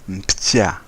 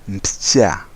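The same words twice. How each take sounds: Both takes have the same delivery.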